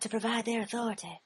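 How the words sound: It is said in a soft, wispy way.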